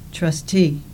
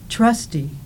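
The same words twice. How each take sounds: First: The stress is on the second syllable. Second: The stress is on the first syllable. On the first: "The second words in the pairs have their stress on the second syllable" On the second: "The first words in the pairs have their stress on the first syllable"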